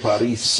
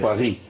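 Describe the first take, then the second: First: The word ends with an s sound. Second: The word ends on a vowel, no s. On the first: This is how Arabic speakers say it. "الفرنسيين ما يقولون باريس" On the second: This is how the French say it. "يقولون باري"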